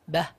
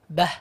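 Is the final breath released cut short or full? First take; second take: cut short; cut short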